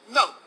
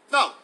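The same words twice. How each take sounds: First: A calm, smiling "No." said downward; demo no, head down. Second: A short, flat, final "No."; firm demo no. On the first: Pastor teaching the right technique for no, calm and firm. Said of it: "you bring your head slightly down this way". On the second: Pastor showing the crowd how to refuse, firm. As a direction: say "No." once, closed and certain. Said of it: "The way you say no is just like this". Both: Shown as a demonstration.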